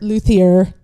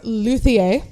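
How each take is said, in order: First: The name is pronounced with an English sound. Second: The name is pronounced with a French sound.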